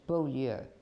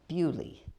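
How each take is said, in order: First: The name is said the formal, textbook way. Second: The name is said the casual, local way. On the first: This is the proper pronunciation of the written name. "if you pronounce it right, it's Beaulieu" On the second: This is what the people there actually call it. "but they call it Bewley"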